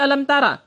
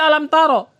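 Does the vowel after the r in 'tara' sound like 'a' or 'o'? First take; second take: a; o. First: The vowel after the r sounds like a. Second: The vowel after the r sounds like o. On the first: The speaker calls it wrong. "tapi alam tara" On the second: The speaker calls it right. "bukan dibaca alam taro"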